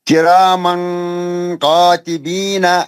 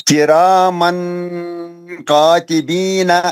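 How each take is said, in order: The two takes are said the same way.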